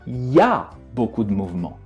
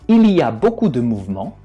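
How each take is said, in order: First: The word il is dropped completely. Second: The word il is fully pronounced.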